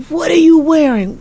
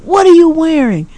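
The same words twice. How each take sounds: First: High mock shriek, stress on you; shocked daughter. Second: High mock shriek, stress on are; shocked daughter. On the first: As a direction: pitch up and lean on "you" in horror. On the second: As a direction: pitch up and hit "are" hard in disbelief. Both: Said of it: "high volume screaming".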